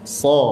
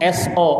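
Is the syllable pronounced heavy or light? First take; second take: heavy; light. First: The syllable is heavy, with a thick, deep sound. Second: The syllable is light, like everyday Indonesian speech. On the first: The speaker calls it right. "dia dibaca tebal namanya" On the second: The speaker calls it wrong. "Yang yang ada dalam bahasa kita itu so"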